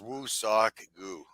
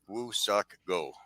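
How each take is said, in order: First: The name ends with a 'goo' sound. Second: The name ends with a 'go' sound. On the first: The speaker calls it right. "it is" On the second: The speaker calls it wrong. "It is not"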